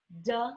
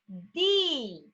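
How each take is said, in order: First: It is said as a short 'd' sound. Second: It is said as the letter name 'dee'. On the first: "Qual é o som?" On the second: "eles dizem um nome"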